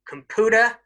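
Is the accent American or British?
American. It is said in an American accent. "in American English"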